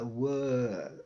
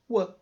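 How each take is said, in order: First: The vowel is drawn out long and full. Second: The vowel is cut short, stopping at w. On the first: "esse som aqui ele se prolonga, ele dura um pouquinho mais" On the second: "parou no w"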